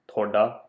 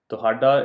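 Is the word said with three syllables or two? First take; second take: two; three. First: The word is shortened to two syllables. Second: The word is said in full, three syllables. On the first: "in regular speech, we end up pronouncing it as thoda" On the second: "the technically correct way to say this word"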